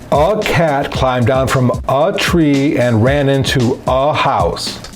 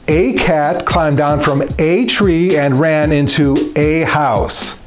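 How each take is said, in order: First: Each 'a' is said as a weak 'uh'. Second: Each 'a' is said as a full 'ay'. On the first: The speaker calls it wrong. "The way I just read that sentence was confusing and made little to no sense" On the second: The speaker calls it right. "Saying a in place of every uh sounds completely natural and conversational"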